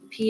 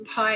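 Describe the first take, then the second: First: The word rhymes with 'pee'. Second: The word rhymes with 'pie'.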